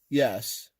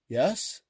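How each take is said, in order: First: The voice falls at the end, like a statement. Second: The voice rises at the end, like a question. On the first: A plain, confident answer. "instead of saying yes" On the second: Unsure, asking whether that is the right answer. "like he was asking them if that was the right answer"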